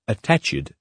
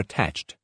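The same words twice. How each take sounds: First: The ending is an extra 'id' syllable. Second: The ending adds no extra syllable. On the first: The speaker calls it wrong. "You cannot say" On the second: The speaker calls it right. "for attached"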